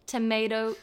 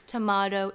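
First: "tomato" as tuh-MAY-toe, spelled out slowly; American pronunciation. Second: "tomato" as tuh-MAH-toe, emphatic; British-Australian pronunciation. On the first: Quoting the saying, "tomato" as slow tuh-MAY-toe. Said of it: "the saying is literally tomato". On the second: Quoting the saying, "tomato" as emphatic tuh-MAH-toe. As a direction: say "tomato" loudly with a long "ah". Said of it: "there's one vowel sound difference". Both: Shown as a demonstration.

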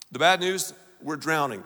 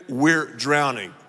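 First: Said in the usual way. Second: Slow, louder repeat of the line; emphatic call-back, slowed down; repeated slow and heavier. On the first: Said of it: "Say it with me". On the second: Shown as a demonstration. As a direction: press it home the second time. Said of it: "Once again".

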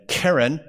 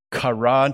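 First: Keren said KEH-ren, with two eh vowels; Hebrew noun pronunciation. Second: Karan said kah-RAHN, with two ah vowels; Hebrew verb pronunciation. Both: Shown as a demonstration. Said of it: "the pronunciation is different".

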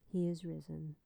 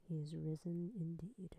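First: Said in the usual way. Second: Soft whispered He is risen indeed. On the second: Real, not acted. Answering her own Easter call in a whisper. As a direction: let the answer fall to a whisper.

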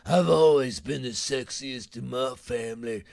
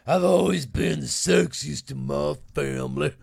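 First: Imitating the TV woman's boast in a put-on voice; her deep voice. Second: Mimicking a TV woman's line, put-on voice, louder; imitating a TV woman. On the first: Host mocking a reality-show woman's voice. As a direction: mimic the woman with the voice that sounds like a bar. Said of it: "the motherfucker's voice". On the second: Host mocking a reality-show woman's boast, put-on voice. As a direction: ham up her boast in a borrowed voice.

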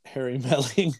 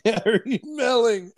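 First: Said in the usual way. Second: "Harry Melling" drawn out slowly and pitched very high; "Harry Melling" said high and slow to correct someone; exaggerated enunciation. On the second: Real, not acted. Laughing, exaggerated repeat correcting the name.

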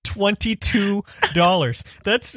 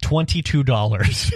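First: Slow, higher disbelief; disbelieving. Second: Laughing. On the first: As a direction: stretch it out in shock. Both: Real, not acted.

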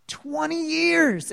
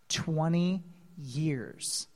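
First: High, drawn-out exclamation; raised voice, slowly stretched for impact; amazed exclamation. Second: Low, slow, soft and weighty; hushed reveal. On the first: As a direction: marvel at it, stretching the words high. Exclaimed repeat of the figure. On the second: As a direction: let it land slowly and quietly. Answers own question, then repeats. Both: Real, not acted.

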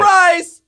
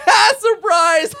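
First: Sudden high, loud shout; Surprise Kid. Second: High, loud cackling shout; Surprise Kid. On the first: Game master as kid startling others on the roof, high shout. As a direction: startle everyone with a piercing yell. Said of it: "on surprise, the kids up top get, like, startled". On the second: Game master as laughing kid at gunk-covered victim, high cackling shout. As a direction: crow it through mocking laughter. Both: Acted.

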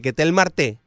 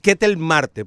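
First: "Marte" stressed on the last syllable, mar-TÉ; English-broadcast stress. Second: "Marte" stressed on MAR; Spanish stress. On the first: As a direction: push the stress to the end of "Marte". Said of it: "en inglés le dicen reiteradamente". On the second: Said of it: "como en inglés le dicen". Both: Shown as a demonstration.

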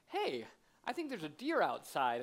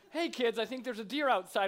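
First: Lightly voiced commercial husband, smooth and unhurried; a hint of a suave husband in a Christmas advert. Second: Put-on higher, eager dad announcing to the kids; lightly hammed-up surprise set-up for the children; imitating commercial husband. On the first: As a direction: play the advert dad casually springing a surprise. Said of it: "there's that husband who goes". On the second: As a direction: call the kids over, mock-excited. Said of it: "not quite the same when I'm like".

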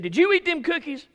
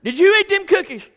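First: High, louder mother's demand; stern question. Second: Very high, very loud repeated demand, stress on you; angrier question. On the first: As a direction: press him for the truth. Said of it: "She said". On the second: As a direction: blow up at the lying kid. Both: Retold or imitated.

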